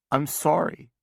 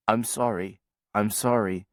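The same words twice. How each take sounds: First: Higher, tearful I'm sorry, breath catching; sobbing apology. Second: I'm sorry, I'm sorry in an even, tuneless monotone; flat echo. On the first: Sister sobs her confession to her brother, tearful. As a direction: choke out the apology through tears. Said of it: "Now I'm sobbing". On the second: Brother echoes his sister's apology, flat robotic monotone. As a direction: echo it back with no music at all. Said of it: "an echo that's been stripped of its music". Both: A narrator's reading.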